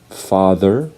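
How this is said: It is said in an American accent. "Americans would say father"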